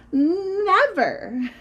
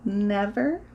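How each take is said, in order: First: "Never" high, loud and drawn out; stubborn child's high, stretched "Never"; emphatic refusal. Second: "Never" as a doubtful rising question; mother's drawn-out, questioning "Never". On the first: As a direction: belt out "Never" with a long first sound. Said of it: "said Tina". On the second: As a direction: ask "Never" slowly, pitch climbing at the end. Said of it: "said Tina's mother". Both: Acted.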